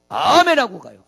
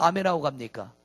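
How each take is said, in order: First: Much louder answer on 아멘하고; emphatic answer. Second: Said in the usual way. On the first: Shown as a demonstration. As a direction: declare 아멘하고 가요 with force. (아멘하고를 힘있게 크게) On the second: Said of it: "핑계를 댑니까?".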